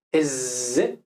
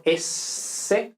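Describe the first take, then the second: First: "S" buzzed as a voiced z. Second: "S" hissed with no voice; voiceless s. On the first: Teacher shows the voiced s for learners. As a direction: buzz the "S" like z. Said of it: "cuando decimos S sí vibra". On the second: Teacher contrasts unvoiced s for learners. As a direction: hiss a voiceless "S". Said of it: "cuando decimos S no vibra". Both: Shown as a demonstration.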